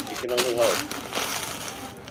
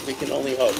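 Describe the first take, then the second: First: Very slow, drawn-out hope; slow wistful. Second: Said in the usual way. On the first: Acted. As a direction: draw it out mournfully.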